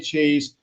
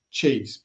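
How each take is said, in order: First: Said in the usual way. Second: Cheese dropped much lower, like a spooky echo; deep echo. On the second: Pretend. Host jokingly echoing the word cheese, deep and falling. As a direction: drag cheese down low and let it fall.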